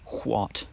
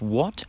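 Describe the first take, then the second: First: It begins with a breathy hw sound. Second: It begins with a plain w sound.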